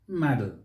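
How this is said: It is said with an American pronunciation. "The Americans may say model"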